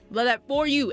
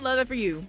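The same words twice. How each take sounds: First: The stress is on "for you." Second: It is said without special stress.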